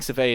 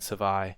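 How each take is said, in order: First: The name ends with an 'ay' sound. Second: The name ends with an 'eye' sound. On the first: "probably the proper pronunciation" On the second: "I've been calling it Savai"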